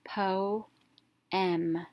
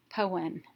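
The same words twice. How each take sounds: First: "Po-em" split, long o, pause, short e; syllable by syllable. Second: "poem" run together as one word; whole word blended. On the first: Teacher reading the whole word, split by syllables. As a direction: read "Po-em" as two separate beats. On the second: Teacher reading the whole word, syllables blended. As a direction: join both syllables smoothly into "poem". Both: Shown as a demonstration. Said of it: "let's read the whole word".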